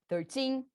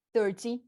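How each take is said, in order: First: Thirteen with the second syllable held and strong; stress on TEEN. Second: Thirty with a strong first syllable and short ty; stress on THIR. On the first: Teacher recapping the rule, thirteen stressed on teen. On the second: Teacher recapping against thirteen, thirty stressed on thir. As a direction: hit the start of thirty. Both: Shown as a demonstration. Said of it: "lembrar que a força".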